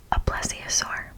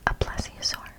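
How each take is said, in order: Both takes have the same delivery.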